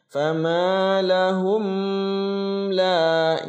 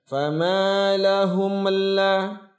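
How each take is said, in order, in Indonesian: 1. Bunyi m ditahan sebelum kata berikutnya. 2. Bunyi m memantul sebelum kata berikutnya. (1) "Contoh yang ditahan" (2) "Atau dibantulkan"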